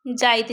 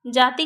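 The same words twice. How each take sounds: First: जाइत, i-glide inside, ending on t; Nagpuri pronunciation. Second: Said in the usual way. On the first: Shown as a demonstration. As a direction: say जाइत with the i before the t. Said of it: "जाति के लिए हम लोग क्या लिख देंगे". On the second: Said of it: "जाइत लिख देंगे".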